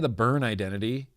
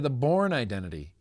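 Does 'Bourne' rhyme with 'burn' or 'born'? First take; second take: burn; born. First: Bourne is said with the vowel of burn. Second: Bourne is said with the vowel of born. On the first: The speaker calls it wrong. "You don't say" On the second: The speaker calls it right. "you say"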